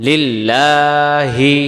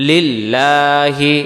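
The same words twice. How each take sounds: Both takes have the same delivery.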